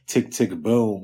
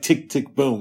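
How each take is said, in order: First: The phrase is said in a chill, relaxed way. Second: The phrase is said in a punchy, energetic way. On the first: This is the speaker's own way of saying it. "I say it in a more of a chill, relaxed way, but it still has a hip hop influence" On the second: This imitates how someone else said it. "he said like"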